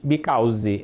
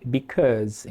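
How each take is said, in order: First: "because" slowly with a u sound, like "bicóuz"; slow "because" with a rounded u vowel; the way to avoid saying "because", with a rounded u; wrong because. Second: "because" slowly with an open a, "bicáz"; "because" held on a long z at the end; correct because. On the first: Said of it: "Não existe because". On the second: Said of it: "é sempre because". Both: Shown as a demonstration.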